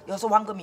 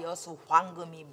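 First: The syllables are slurred together loosely. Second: Each syllable is pronounced crisply and separately. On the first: The speaker calls it wrong. "이런 거를 흘려서 여수 황금이 이렇게 하면 안 돼" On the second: The speaker calls it right. "이렇게 탁탁탁탁 발음 하나씩 해줘야 돼"

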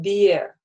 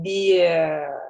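First: The final sound is held only briefly. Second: The final sound is held for a long time. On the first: The speaker calls it right. "мы говорим «Бе»" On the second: The speaker calls it wrong. "мы не говорим «Бе», да, то есть это уже будет долго"

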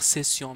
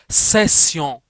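First: The opening s is a plain, light s. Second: The opening s is a heavier, emphatic s. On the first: The speaker calls it wrong. "Je vais pas dire session" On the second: The speaker calls it right. "mais je veux dire session"

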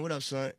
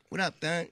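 First: The last word starts with a plain s sound. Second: The last word starts with a lisped th sound. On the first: "We call each other son. Everybody right. be like" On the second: "when Bumpy say it, he be like"

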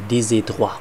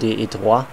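First: The s of des is carried over. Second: The s of des is not carried over. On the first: The speaker calls it right. "Man muss ja das S mit rübernehmen" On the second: The speaker calls it wrong.

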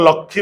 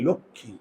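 First: The first vowel is an open aw sound. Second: The first vowel is a closed o sound. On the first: The speaker calls it wrong. "আমরা তো লক্ষ্মী বলি না" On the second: The speaker calls it right. "লক্ষ্মী চোয়াল খোলে না"

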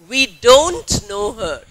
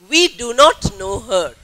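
First: Do not is said as one contracted word. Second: Do not is said as two full words. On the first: It suits informal speech. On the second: It suits formal speech.

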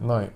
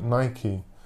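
First: The name is said the British way. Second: The name is said the American way.

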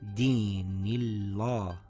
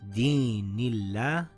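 First: The l sound is pronounced thick and heavy. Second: The l sound is pronounced thin and light. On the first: The speaker calls it wrong. "and not" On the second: The speaker calls it right. "we see a kasra before the name of Allah"

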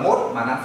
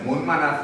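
First: The first word ends in a t sound. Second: The first word ends in an n sound. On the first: The speaker calls it wrong. "Không phát âm là mốt manas rồi. Nghe là rất cứng" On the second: The speaker calls it right. "Cô đi đấy, môn manas rồi"

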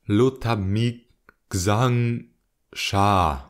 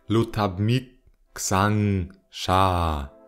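First: The words are pronounced fairly mildly. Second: The words are pronounced much more harshly. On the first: The speaker calls it wrong. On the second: The speaker calls it right.

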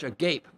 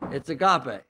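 First: It is read as the English word. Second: It is said with the Greek pronunciation. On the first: The speaker calls it wrong. "it looks like in English" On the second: The speaker calls it right. "but it's not agape, okay?"

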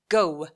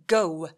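No difference in how they are said.

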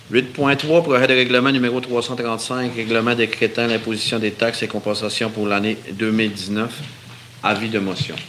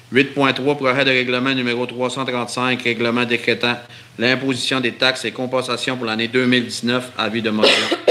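Both takes have the same delivery.

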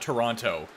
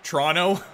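First: The second t sound is clearly pronounced. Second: The second t sound is dropped entirely. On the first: This is how outsiders say it. The speaker calls it wrong. "nobody says it like that" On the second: This is how locals say it. The speaker calls it right. "it could be T-R-O-N-O"

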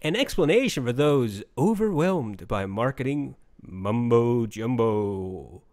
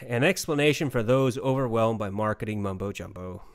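First: The voice sounds upbeat and full of energy. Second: The voice sounds flat, with no enthusiasm. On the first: The speaker calls it right. "so that I can be more upbeat about this" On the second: The speaker calls it wrong. "there's no enthusiasm in my voice"

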